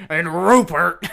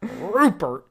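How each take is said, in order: First: Gravelly. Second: A hint of gravel on Rupert, higher; gravelly. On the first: Retold or imitated. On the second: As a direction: growl out Rupert like a grumpy old man. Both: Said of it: "You gotta get really gravelly there".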